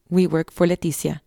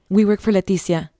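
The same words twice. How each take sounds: First: Said in the usual way. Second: Blurted. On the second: A narrator's reading. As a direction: blurt it out in panic. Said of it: "she finally blurted".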